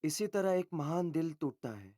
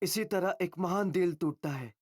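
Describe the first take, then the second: First: The line is delivered with calmer, lower energy. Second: The line is delivered with noticeably more energy. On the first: "ये अच्छा था" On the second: "दोबारा करते हैं ज्यादा energy के साथ"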